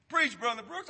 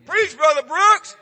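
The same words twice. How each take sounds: First: Said in the usual way. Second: Loud, slow self-cheer. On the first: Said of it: "I am". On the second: Pretend.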